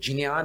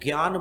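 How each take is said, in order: First: Pronounced the way Sanskrit reciters say it. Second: Pronounced the way Hindi speakers say it. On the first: "इसका शुद्ध उच्चारण ज और ञ से मिलकर" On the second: "जो हिंदी भाषी लोग हैं वो ज्ञान बोलते हैं"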